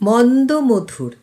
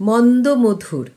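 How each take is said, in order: The two takes are said the same way.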